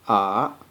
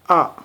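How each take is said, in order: First: It is said with the third tone. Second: It is said with the sharp fourth tone. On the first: "The third tone pronounced like ah" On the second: "the fourth tone pronounced like ah. This kinda sharp"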